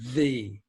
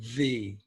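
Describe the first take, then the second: Both takes have the same delivery.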